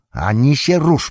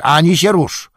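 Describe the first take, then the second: First: High, loud soldier's warning; stern shout. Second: Much higher, louder repeated warning; louder shout. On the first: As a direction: bark the order at the prisoner. Soldier shouts a threat at Gollum. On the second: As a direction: yell the order in full force. Soldier repeats the threat louder. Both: A narrator's reading.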